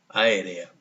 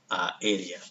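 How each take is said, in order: First: The first two vowels are merged into one syllable. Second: The first two vowels are said as separate syllables. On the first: The speaker calls it wrong. "aquí está haciendo sinéresis, es decir, que sonaría aérea" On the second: The speaker calls it right. "Sonaría pues aérea"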